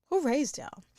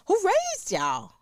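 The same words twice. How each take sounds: First: Said in the usual way. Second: Slow, higher, incredulous question; drawn-out disbelief. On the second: Acted. Host scolding careless parents, slow and higher in disbelief. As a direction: stretch it out, scandalized.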